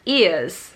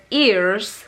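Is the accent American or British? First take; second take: British; American. First: It is said with a British accent. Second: It is said with an American accent. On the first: "British says" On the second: "American says"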